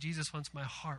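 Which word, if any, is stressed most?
none. No word gets special emphasis. "instead of just saying"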